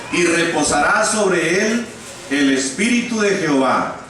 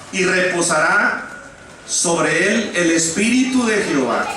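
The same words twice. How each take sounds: The two takes are said the same way.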